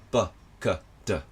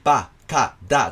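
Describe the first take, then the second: First: The vowels are short, quiet and barely voiced. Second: The vowels are open, full and clearly voiced. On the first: The speaker calls it right. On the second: The speaker calls it wrong.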